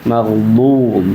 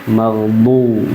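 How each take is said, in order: Both takes have the same delivery.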